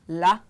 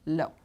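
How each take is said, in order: First: The vowel is an open ah sound. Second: The vowel is a rounded oh sound. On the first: "this would be either la" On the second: "or lo"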